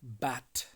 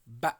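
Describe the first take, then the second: First: The final t sound is clearly pronounced. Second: The final t sound is dropped.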